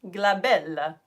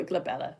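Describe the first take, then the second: First: Playful mock-Italian "glabella"; Italian accent. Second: Said in the usual way. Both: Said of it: "say it in Italian accent".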